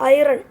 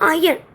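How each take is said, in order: First: It is said with an r sound. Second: It is said without an r sound. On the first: "ഹിന്ദിക്കാരുടെ ഭാഷയിൽ ഐറൺ" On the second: "കേവിലാണ് ഏറ്റവും കൂടുതൽ അയൺ"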